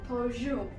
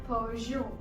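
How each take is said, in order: No difference in how they are said.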